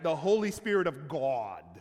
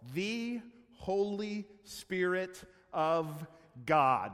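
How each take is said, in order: First: The vowel in 'God' is rounded and full. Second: The vowel in 'God' is plain and unrounded. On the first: The speaker calls it right. "you have to round the O on God" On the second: The speaker calls it wrong. "I don't think you can even say it like that"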